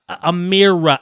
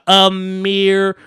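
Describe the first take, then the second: First: Said in the usual way. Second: "A mirror" dragged out slowly, each part apart; slow, deliberate "A mirror" like sounding out a name. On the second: Retold or imitated. Mocking the mother's careful, slow "A mirror". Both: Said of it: "They don't try to sound your name out".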